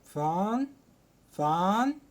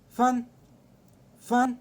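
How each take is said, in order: First: It is said with a rising tone. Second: It is said with the fourth tone. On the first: "تاني واحدة بتطلع صوتك فيها" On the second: "رابع لهجة معانا"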